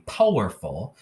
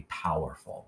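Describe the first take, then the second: First: "powerful" with a long O, like "poe-werful"; "poh-werful", first vowel as in "go"; wrong vowel. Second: "powerful" with OW as in "cow"; soft, low "powerful", first syllable "pow"; OW sound. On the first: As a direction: say "powerful" as if OW were O. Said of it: "this would not be powerful". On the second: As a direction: say "powerful" with an ow vowel, softly. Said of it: "It has to be powerful with O W". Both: Shown as a demonstration.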